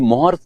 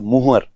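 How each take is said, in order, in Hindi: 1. पहला स्वर 'o' की ध्वनि है। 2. पहला स्वर 'u' की ध्वनि है। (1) "ये मोहर जो वर्ड है वो टेक्निकली गलत है" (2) "इसका जो सही उच्चारण होता है वो होता है मुहर"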